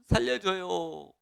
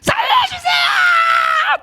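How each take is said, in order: First: It is said calmly, without urgency. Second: It is shouted desperately and urgently.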